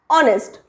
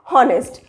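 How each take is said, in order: First: The word begins without an h sound. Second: The word begins with an h sound. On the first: The speaker calls it right. "H is silent. It is honest" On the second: The speaker calls it wrong. "not honest"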